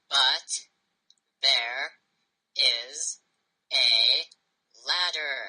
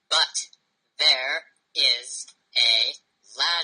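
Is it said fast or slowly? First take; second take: slowly; fast. First: It is said at a slower pace. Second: It is said at a quicker pace.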